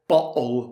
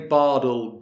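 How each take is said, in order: First: The middle t is a glottal stop. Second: The middle t sounds like a d. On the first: "with the glottal T" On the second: "with the d sound, which is used more in America"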